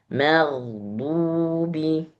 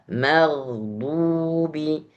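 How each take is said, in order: Both takes have the same delivery.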